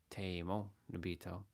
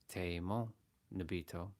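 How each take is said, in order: The two takes are said the same way.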